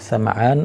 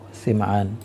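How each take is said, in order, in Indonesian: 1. Vokal pertama adalah bunyi 'a' terbuka. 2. Vokal pertama adalah bunyi 'i' tertutup. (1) "sinnya di fathah sa" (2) "dan juga di kasroh si"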